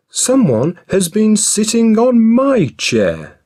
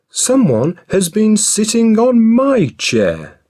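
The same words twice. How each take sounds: First: It is said in a middle-sized voice. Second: It is said in a middle-sized voice.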